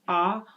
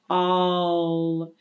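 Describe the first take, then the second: First: An open vowel with no L sound. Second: A full vowel gliding into an L. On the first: The speaker calls it wrong. "it's not just ah" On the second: The speaker calls it right. "has some L coloration in it"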